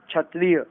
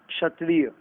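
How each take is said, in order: First: क्षत्रिय said as "chhatriya"; wrong "chh" sound. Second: क्षत्रिय said as "kshatriya"; correct "ksh" sound. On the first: Teacher rejecting the error, क्षत्रिय with chh. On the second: Teacher correcting it, क्षत्रिय with ksh. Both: Shown as a demonstration. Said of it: "क्षत्रिय नहीं".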